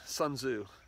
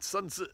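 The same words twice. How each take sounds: First: The name is said with an American pronunciation. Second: The name is said with a non-American pronunciation.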